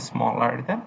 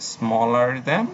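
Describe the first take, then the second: First: Smaller than spelled out slowly; teacher slowing down to repeat; slow and deliberate. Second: Said in the usual way. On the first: Shown as a demonstration. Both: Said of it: "ঠিক আছে, smaller than".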